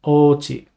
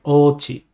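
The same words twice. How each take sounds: The two takes are said the same way.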